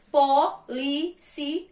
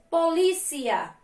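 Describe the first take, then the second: First: "Polícia" in four slow, separate syllables. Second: Said in the usual way. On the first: Shown as a demonstration. Teacher proving four syllables, "Polícia" split up. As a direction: say "Polícia" as po, lí, ci, a with pauses. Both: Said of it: "quatro sílabas".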